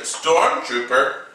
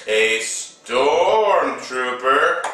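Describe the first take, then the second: First: Said in the usual way. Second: "stormtrooper" stretched slowly; drawn-out emphasis. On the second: Real, not acted. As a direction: draw out the first syllable of "stormtrooper". Repeats it drawn out for effect.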